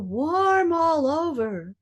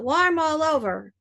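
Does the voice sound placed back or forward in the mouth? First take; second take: back; forward. First: The voice sounds placed back in the mouth. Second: The voice sounds placed forward in the mouth. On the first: The speaker calls it right. "go back" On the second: The speaker calls it wrong. "not warm all over. Don't go forward"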